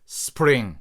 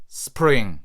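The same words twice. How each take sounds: Both takes have the same delivery.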